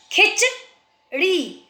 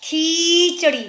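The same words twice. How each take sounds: First: "खिचड़ी" as brief "खिच", pause, long "ड़ी"; slow split "खिचड़ी", short i first. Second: "खीचड़ी" with a stretched "खी"; wrong-form "खीचड़ी", long ee at the start; long first ee. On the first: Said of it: "ख में छोटी की मात्रा". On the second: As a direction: hold the first vowel of "खीचड़ी". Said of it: "ख में भी बड़ी मात्रा". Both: Shown as a demonstration.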